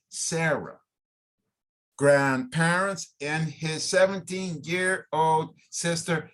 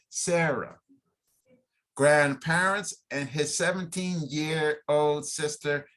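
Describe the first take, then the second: No difference in how they are said.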